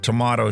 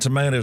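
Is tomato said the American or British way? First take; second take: British; American. First: Tomato is said with the British vowel. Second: Tomato is said with the American vowel. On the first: This is the listener's way of saying it. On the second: This is the speaker's own way of saying it.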